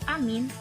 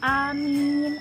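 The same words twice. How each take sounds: First: Both vowels are short. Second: Both vowels are long. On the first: It means safe. The speaker calls it wrong. "pendek semua" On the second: It means may God grant our prayer. The speaker calls it right. "yang benar, a-nya panjang, mim-nya panjang"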